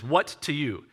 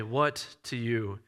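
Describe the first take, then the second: First: Said in the usual way. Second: Low, slow, softened sickbed voice; hushed and slow, barely managing words; weak near-whisper. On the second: Acted. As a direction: say it quietly, like an unwell man. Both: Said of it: "He may be whispering this".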